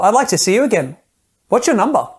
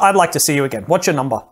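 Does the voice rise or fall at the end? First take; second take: rise; fall. First: The voice rises at the end, sounding tentative. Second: The voice falls at the end, sounding commanding.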